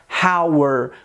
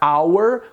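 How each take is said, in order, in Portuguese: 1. A palavra começa com um som de h audível. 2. A palavra começa diretamente com o som da vogal. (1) "a gente não pronuncia hour, como se estivesse utilizando o som do R" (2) "você pronuncia hour, como se não existisse a letra H"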